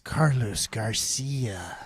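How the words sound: The name is said with an American accent. "That's that's how the Americans would say it"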